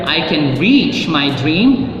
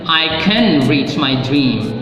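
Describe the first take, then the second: First: The stress falls on the word reach. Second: The stress falls on the word can. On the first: There is the strength to achieve the dream. "You have the strength to reach your dream" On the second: Reaching the dream is believed to be possible. "That means you believe it's possible to reach your dream"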